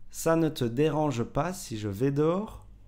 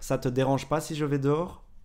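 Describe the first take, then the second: First: The word 'ne' is fully pronounced. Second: The word 'ne' is dropped in fast speech.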